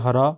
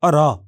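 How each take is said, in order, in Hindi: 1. यह एक साफ़ साँस वाली h ध्वनि से शुरू होता है। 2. यह गिरती तान से शुरू होता है, कोई h नहीं। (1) "हिंदी में" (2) "गिरती तान फॉलिंग टोन ... शब्द के आरंभ में होता है तो इसका उच्चारण तान में बदल जाता है"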